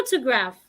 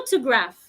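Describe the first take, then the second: The two takes are said the same way.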